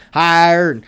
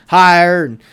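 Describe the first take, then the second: No difference in how they are said.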